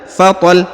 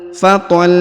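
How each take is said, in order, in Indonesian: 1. Bunyi akhirnya dipotong pendek. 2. Bunyi akhirnya ditahan dan dipanjangkan. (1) "tidak dibaca fatal" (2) "ditahan dan dipanjangkan dua harokat"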